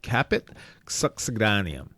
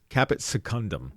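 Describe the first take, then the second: First: The second word sounds like suck-seh-DAY-nee-um. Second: The second word sounds like seh-KUN-dum. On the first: The speaker calls it right. "let's start with a finding called caput succedaneum" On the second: The speaker calls it wrong. "I've been pronouncing this caput secundum"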